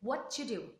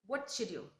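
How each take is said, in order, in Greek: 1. Το t παραλείπεται και οι λέξεις ενώνονται μεταξύ τους. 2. Το t παραλείπεται και οι λέξεις ενώνονται μεταξύ τους.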